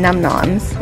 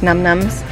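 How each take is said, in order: First: The second syllable has an 'o' vowel, 'nom'. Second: The second syllable has an 'u' vowel, 'num'. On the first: "It sounds so weird saying num-noms" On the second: "instead of like num-nums"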